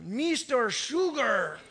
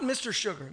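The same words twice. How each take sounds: First: Slow, stretched imitated accent on MISTER SUGAR; his accent. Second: Said in the usual way. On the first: Tipsy regular's nickname for the pastor, drawled accent. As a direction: draw out both words in the man's accent. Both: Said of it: "Not Mister Sugar".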